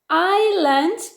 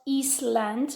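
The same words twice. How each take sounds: First: The S is silent in the word. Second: The S sound is pronounced in the word. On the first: The speaker calls it right. "we don't say the S" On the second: The speaker calls it wrong. "not island, remember, no"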